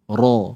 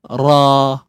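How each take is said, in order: First: The r sound is heavy and thick. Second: The r sound is light and thin. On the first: The speaker calls it right. "Kita nak sebut ra. ... ra ni kena baca dengan dengan tebal" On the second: The speaker calls it wrong. "jangan buka mulut sahaja tapi bunyi nipis. Contoh eh"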